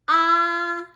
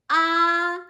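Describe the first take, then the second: First: The pitch stays high and level. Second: The pitch stays high and level.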